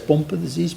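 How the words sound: Pompe is said the speaker's non-American way. "We say Pompe disease"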